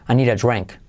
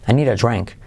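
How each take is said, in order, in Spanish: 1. Las palabras se dicen rápido y unidas. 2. Las palabras se dicen rápido y unidas.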